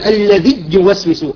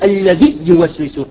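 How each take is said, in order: The two takes are said the same way.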